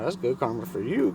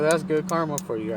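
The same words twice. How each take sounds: First: "you" leaned on with a rising tune; stress on "you". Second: Said in the usual way. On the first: Retold or imitated. He returns her karma line to her, stressing "you". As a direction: turn it back, landing on "you". Turns her phrase back on her.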